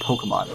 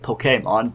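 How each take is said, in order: First: The middle syllable gets no special emphasis. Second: The middle syllable is strongly emphasized. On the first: "But no, it's Pokemon" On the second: "even more technically, Pokemon, but it's kind of hard to say to put the emphasis on the accent agu e"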